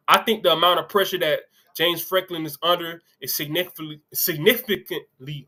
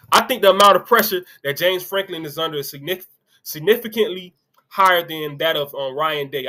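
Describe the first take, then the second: First: Tripping over significantly, slowing down on it; reading Greg McElroy's quote to viewers, stumbling on significantly. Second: Said in the usual way. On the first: Real, not acted. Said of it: "I'm sorry, I'm gonna start over". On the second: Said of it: "I'm gonna start over".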